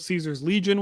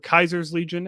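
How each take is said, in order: First: The name begins with an S sound. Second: The name begins with a K sound. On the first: This is the common way to say the name. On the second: This is how the faction itself says the name.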